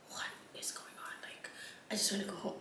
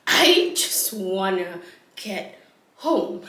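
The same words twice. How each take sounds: First: Hushed, whispered inner thought; whispered plea. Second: Slow, voiced mock plea; drawn-out plea. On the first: Retold or imitated. Tired woman watching the chaos, whispered plea. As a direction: whisper it to yourself. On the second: Tired woman repeating her wish, slow drawn-out plea. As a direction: stretch out every word.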